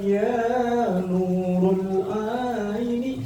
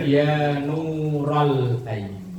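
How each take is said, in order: First: The word nurul has a u in its second syllable. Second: The word nural has an a in its second syllable. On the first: The speaker calls it wrong. "salah itu" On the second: The speaker calls it right. "Yang benar"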